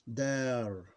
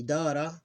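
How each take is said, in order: First: "dar" ending on the r; vowel ending ignored. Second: "dara" with the final a sounded; full vowel ending. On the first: Teacher showing how to ignore the vowel, ending dropped. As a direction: say "dar" without a final a. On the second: Teacher reading line three as written, full vowel ending. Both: Shown as a demonstration. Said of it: "Ignore the vowel".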